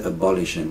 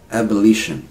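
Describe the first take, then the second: First: "abolition" built on "abolish", uh-BOL-ishun; mistaken stress. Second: "Abolition" as AB-uh-LI-shun; changed first vowel. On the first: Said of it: "We don't say abolition". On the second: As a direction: open with a clear "ab", stress LI in "Abolition". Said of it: "See, now it changes". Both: Shown as a demonstration.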